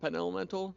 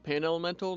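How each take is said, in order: First: The first syllable has the vowel of pen. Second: The first syllable has the vowel of pan. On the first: The speaker calls it wrong. "not pen elemental" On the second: The speaker calls it right. "It's actually pan elemental"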